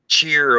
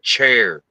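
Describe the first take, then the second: First: The vowel sounds like the one in cheer. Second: The vowel sounds like the one in chair. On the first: The speaker calls it wrong. "I was corrected for saying" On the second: The speaker calls it right. "my family would go, it's chair"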